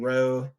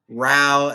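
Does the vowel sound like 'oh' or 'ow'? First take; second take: oh; ow. First: The vowel is the 'oh' sound. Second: The vowel is the 'ow' sound. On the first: It means to move a boat with oars. "Row as in row a boat" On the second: It means a fight or quarrel. "row as in um, get into a fight or something"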